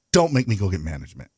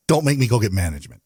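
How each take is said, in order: First: Lower, lightly voiced dad warning. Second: Lightly voiced stern-dad warning; a hint of dad warning the kids. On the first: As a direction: put on a bit of a dad's authority, pitched down. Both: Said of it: "in my best dad voice".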